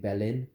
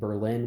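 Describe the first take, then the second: First: It is said with a German pronunciation. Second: It is said with an American pronunciation. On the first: The speaker calls it right. "ideally be saying" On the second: The speaker calls it wrong. "instead of saying"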